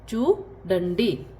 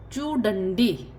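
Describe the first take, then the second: First: चूडंडी stretched slowly; very slow repeat. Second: Said in the usual way. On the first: Shown as a demonstration. Teacher repeats Telugu for see very slowly. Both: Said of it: "सी".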